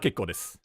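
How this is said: It sounds like a polite refusal. No thanks, it is not needed. "the first one was like you don't need it"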